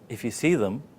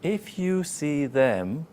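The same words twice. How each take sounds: First: See and them blend into one word, ending weakly. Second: See and them are said as separate words. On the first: The speaker calls it right. "see and them becomes one word" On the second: The speaker calls it wrong. "it's like two words"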